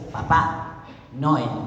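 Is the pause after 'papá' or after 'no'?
after papá. The pause comes after the word papá. It is the father, not him. "Y en el caso es"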